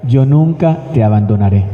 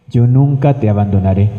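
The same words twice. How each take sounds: The two takes are said the same way.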